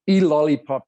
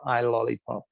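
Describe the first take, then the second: First: The title begins with an 'ee' sound. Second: The title begins with an 'eye' sound. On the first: This is how the title is actually said. "is how it's pronounced" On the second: This is how a reader would guess it. "if you were to read it, you would pronounce it"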